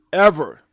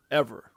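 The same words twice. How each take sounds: First: "ever" punched out much louder; loud, standalone stress on "ever"; emphatic EVER. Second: Said in the usual way. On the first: Real, not acted. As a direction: hit "ever" hard as a one-word sentence. Repeats the word for emphasis.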